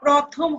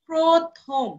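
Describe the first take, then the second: First: The first vowel is an open 'aw' sound. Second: The first vowel is a closed 'o' sound. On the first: The speaker calls it wrong. "তেমনি প্রথম হবে না" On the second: The speaker calls it right. "প্র এর উচ্চারণ প্র হয়ে গেল"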